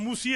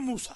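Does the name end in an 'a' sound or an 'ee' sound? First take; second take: ee sound; a sound. First: The name ends with an 'ee' vowel. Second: The name ends with an 'a' vowel. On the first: This is how people in India say it. The speaker calls it wrong. "ये हमारे जो हिंदुस्तान वाले हैं ये मूसी कहते हैं" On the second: This is the original form of the name. The speaker calls it right. "असल में मूसा है"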